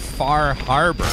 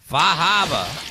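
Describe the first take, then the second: First: The name is said in a plain accent. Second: The name is said in a thick Boston accent. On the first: The speaker calls it wrong. "you can't say Far Harbor" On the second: The speaker calls it right. "They say it with that thick Boston accent"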